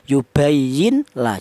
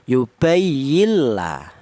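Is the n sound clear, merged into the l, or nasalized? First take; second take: clear; merged. First: The n is pronounced clearly before the l. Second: The n disappears and merges into a doubled l. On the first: The speaker calls it wrong. "jangan seperti idhar" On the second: The speaker calls it right. "Jadi cara bacanya yubayilla"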